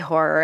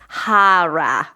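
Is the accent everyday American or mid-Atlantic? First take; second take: everyday American; mid-Atlantic. First: It is said in an everyday American accent. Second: It is said in a mid-Atlantic accent. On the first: "I say horror" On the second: "I want to put on like a mid-Atlantic accent"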